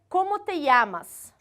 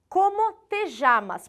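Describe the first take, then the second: First: It is said in a Peruvian accent. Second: It is said in a Uruguayan accent. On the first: "Se eu fosse uma peruana, uma espanhola, eu falaria" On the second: "percebam como eu falo. Como te chamas? Porque sou uruguaia"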